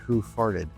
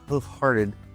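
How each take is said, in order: First: The f joins the second word with no h. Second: The f ends the first word; an h follows. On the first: The speaker calls it wrong. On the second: The speaker calls it right.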